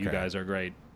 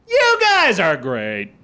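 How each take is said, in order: First: The pitch stays level and even throughout. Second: The pitch starts high and falls low. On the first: It sounds like a computer talking. "You want to keep an even keel" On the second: It sounds sarcastic. "If you start high and go down low"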